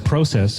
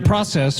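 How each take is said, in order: First: It is said in a Canadian accent. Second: It is said in an American accent.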